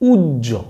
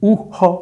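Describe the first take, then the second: First: The word is read with a doubled j sound. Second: The word is read with an h sound. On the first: The speaker calls it right. "এই শব্দটা হচ্ছে উজ্জ।" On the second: The speaker calls it wrong. "ন, এটা উহ নয়।"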